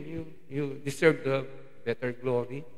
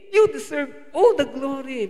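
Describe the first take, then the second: First: Said in the usual way. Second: "all" leaned on, the line higher, louder and slow; corrected lyric. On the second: Retold or imitated. Preacher correcting the worship song's words, emphatic and slow. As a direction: give the right words weight, stressing "all". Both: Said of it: "Ayoko nung kanta natin kanina".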